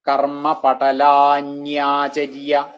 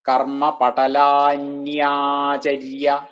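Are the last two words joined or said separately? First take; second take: joined; joined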